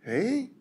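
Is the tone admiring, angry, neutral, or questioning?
questioning. It is unsure and questioning.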